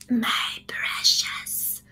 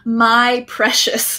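First: It is said in a raspy Gollum voice. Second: It is said in her normal voice.

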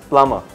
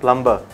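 First: The B sound is silent. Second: The B sound is pronounced. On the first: The speaker calls it right. "it's plumber" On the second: The speaker calls it wrong. "this one is not plumber"

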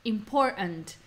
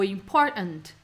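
First: The middle T becomes a glottal stop. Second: The same.

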